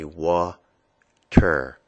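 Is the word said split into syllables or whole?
split. The word is split with a break between syllables. "break apart the sound"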